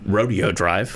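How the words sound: It is said the way Pendleton locals say it.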